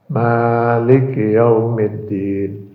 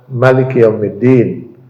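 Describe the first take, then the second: First: The vowel after the m is held long. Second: The vowel after the m is kept short. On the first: It names the one who owns and holds power. "Dipanjangkan mimnya dua harakat" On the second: It names the king. "kalau dibaca pendek"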